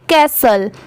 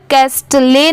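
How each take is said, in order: First: No t sound is pronounced in the middle. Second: A t sound is pronounced in the middle. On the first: The speaker calls it right. "यहाँ पर टी letter silent है" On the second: The speaker calls it wrong. "यहाँ पर कैस्टले नहीं पढ़ेंगे"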